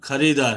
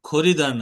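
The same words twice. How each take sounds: First: The first syllable is said with an 'a' vowel. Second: The first syllable is said with an 'o' vowel. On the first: The speaker calls it right. "ও খো না খা।" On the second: The speaker calls it wrong. "ও খো না খা।"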